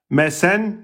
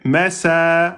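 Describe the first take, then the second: First: The word ends with a short vowel plus n. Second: The word ends with a long vowel, no n. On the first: The reader continues without stopping. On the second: The reader stops on this word.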